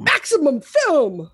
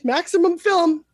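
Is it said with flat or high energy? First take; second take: high energy; flat. First: It is said with loud, extreme, hyped energy. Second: It is said in a flat, normal way.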